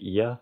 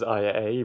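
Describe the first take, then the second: First: The name is said as one word. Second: The name is spelled out as two letters. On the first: The speaker calls it right. "it's supposed to be Ia" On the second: The speaker calls it wrong. "I always read it as I A"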